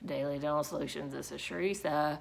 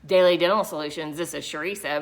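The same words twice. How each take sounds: First: The greeting sounds unwilling and unenthusiastic. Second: The greeting sounds annoyed and upset. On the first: The person does not want to be at work. "because you're not wanting to be at your job that day" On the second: The person is still bothered by an earlier call. "because you're upset with the last phone call you had"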